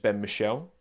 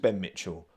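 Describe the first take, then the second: First: The surname is said without a T sound. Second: The surname is said with a T sound. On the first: The speaker calls it right. "pronounced it as Ben Michel" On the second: The speaker calls it wrong. "I thought it was Ben Mitchell"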